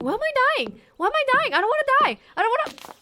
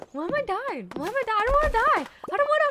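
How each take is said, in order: First: Very high, loud desperate wail; mock panicked whine of a dying player; panicked dying cry. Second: Very high, loud desperate wail; hammed-up panicked whine; panicked dying cry. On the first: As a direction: wail as if life is slipping away. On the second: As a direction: replay the whine of a dying player. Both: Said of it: "it's like".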